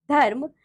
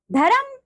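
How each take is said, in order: First: Said in the usual way. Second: "धर्म" high, in two syllables "dha-ram"; wrong pronunciation. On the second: Shown as a demonstration. Teacher showing pupils the r error, "धर्म" mispronounced as "dharam". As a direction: add a vowel inside "धर्म", "dharam". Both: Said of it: "र संबंधी अशुद्धियां".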